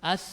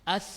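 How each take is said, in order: Both takes have the same delivery.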